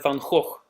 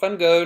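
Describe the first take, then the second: First: The name is pronounced with Dutch sounds. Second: The name is pronounced with English sounds. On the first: The speaker calls it right. "I have to say it Dutch way" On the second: The speaker calls it wrong. "not Van Gogh"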